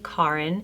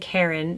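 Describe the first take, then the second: First: The name is said with a Swedish pronunciation. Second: The name is said with an English pronunciation. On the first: "in Swedish it would be Karin" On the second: "I'm saying Karen"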